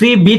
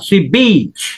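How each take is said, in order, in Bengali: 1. স্বরধ্বনিগুলো ছোট ও ছাঁটা করে বলা হয়। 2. স্বরধ্বনিগুলো টেনে লম্বা করে বলা হয়। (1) "সি বিচ না" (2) "যেখানে ডাবল ভাওয়েল আছে সেখানে একটু টান দিতে হবে"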